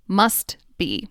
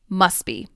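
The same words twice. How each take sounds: First: The final T of must is pronounced. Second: The final T of must is dropped. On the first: "I enunciated each word" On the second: "The T at the end of must disappears"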